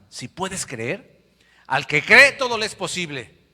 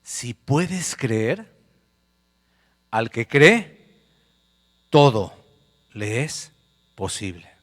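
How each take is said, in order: First: Very slow start, then a loud rise on "posible"; slow, weighty quote. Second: Very slow, each phrase spaced out; slow, weighty quote. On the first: Preacher delivers Jesus's words to the congregation, slow then loud. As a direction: build Jesus's words to a climax. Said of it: "Jesús le dijo". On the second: Preacher gives Jesus's words slowly to the church. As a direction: let every word of Jesus land. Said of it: "Jesús le dice al papá". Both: Acted.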